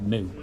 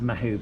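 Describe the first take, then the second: First: The name is said as one syllable, like moo. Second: The name is said with two syllables. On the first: The speaker calls it right. "I think it's actually called Moo" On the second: The speaker calls it wrong. "I mean, pronouncing it wrong"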